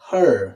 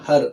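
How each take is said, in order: First: It is said in an American accent. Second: It is said in a British accent. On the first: "అదే Americans చూసుకుంటే హర్" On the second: "Britishers ఈ ఈ word ని హర్ అంటారు"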